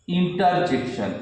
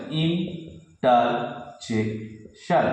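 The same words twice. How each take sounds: First: Said in the usual way. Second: interjection very slowly as ইন-টার-জেক-শন; syllable by syllable. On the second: Shown as a demonstration. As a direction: pause after each syllable of interjection. (ভেঙে ভেঙে, খুব ধীরে উচ্চারণ) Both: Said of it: "syllable ভেঙে ভেঙে বলতে হবে".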